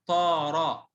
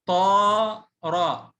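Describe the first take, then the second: First: Said in the usual way. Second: طارة split into long طا, pause, را; spelled out. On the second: Shown as a demonstration. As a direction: sound out طارة very slowly by syllable. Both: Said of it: "اتهجى".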